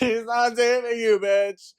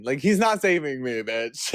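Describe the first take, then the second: First: Loud, very high squeal through laughter; laughing outburst. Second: Said in the usual way. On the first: Real, not acted. Telling listeners he can't save you, laughing high and loud. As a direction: shriek it while cracking up. Same denial escalated, laughing.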